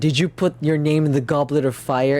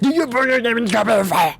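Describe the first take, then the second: First: It is said calmly. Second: It is yelled loudly.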